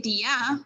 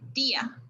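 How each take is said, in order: First: The stress is on the second syllable. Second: The stress is on the first syllable. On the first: The speaker calls it wrong. "You wouldn't say dia" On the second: The speaker calls it right. "you would say dia because the sound, the, the strong sound is the I"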